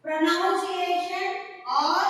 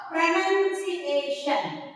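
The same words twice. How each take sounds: First: Pronunciation said pro-NOUN-ciation, slow; pronunciation with the noun sound, slowly; wrong pronunciation. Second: Pronunciation said pro-NUN-ciation, slow; pronunciation with the short nun, slowly; correct pronunciation. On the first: Teacher asks which is right, wrong pronunciation first. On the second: Teacher gives the right version, correct pronunciation. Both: Shown as a demonstration. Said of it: "Is it".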